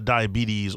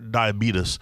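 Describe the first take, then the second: First: It is said with its ordinary everyday pronunciation. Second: It is said with an imitated, unusual folksy pronunciation.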